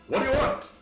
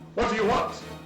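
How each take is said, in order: First: It is said in a higher, Zoidberg-like voice. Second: It is said in a 1940s newsman voice.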